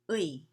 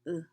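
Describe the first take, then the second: First: The vowel glides from one sound into another. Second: The vowel stays one short plain sound. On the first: This is the careful, proper pronunciation. "the proper pronunciation is 의 in slow speech" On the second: This is the casual fast-speech pronunciation. "in fast speech just say it like uh"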